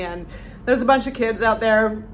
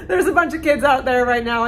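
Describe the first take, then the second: First: Said in the usual way. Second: Higher and louder, laughing through it. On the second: Real, not acted. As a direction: laugh while you repeat it.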